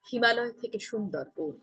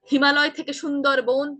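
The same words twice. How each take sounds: First: It is said firmly but not loudly. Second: It is said very loudly and exaggerated.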